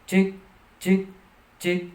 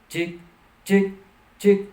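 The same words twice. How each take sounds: No difference in how they are said.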